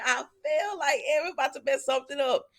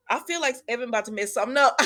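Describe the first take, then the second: First: Said in the usual way. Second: Laughing. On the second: Retold or imitated. Laughing retelling of own remark.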